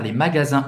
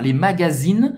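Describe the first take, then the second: First: "magasins" ending in a nasal vowel, no sounded N; correct nasal ending. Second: "magazines" ending in "zeen", N fully sounded; mistaken sounded N. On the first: Teacher modelling the word for shops, nasal ending. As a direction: say "magasins" the French way, final IN nasal. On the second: Teacher showing what not to say, ending in -een. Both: Shown as a demonstration. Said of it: "E não falar les magazines".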